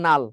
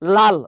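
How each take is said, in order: First: The word begins with an n sound. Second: The word begins with an l sound. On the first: This is the uneducated speaker's form. "ও বলবেন নাল" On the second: This is the educated speaker's form. "ওরে বলবেন লাল"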